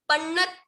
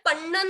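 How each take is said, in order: First: पन्नत stopped on a half t. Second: पन्न ending on the vowel after double n; without the t. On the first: Teacher showing what she is saying, careful half-letter demo. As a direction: end पन्नत on a त with no vowel. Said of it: "पन्नत बोल रही हूँ". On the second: Teacher showing what she isn't saying, contrast demo. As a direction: say पन्न with no त at the end. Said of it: "सिर्फ पन्न नहीं बोल रही हूँ". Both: Shown as a demonstration.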